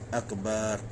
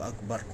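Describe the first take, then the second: First: The vowel between b and r is drawn out long. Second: The vowel between b and r is kept short. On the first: The speaker calls it wrong. "jangan ada alif. Jangan panjang situ" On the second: The speaker calls it right.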